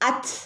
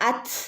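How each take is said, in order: The two takes are said the same way.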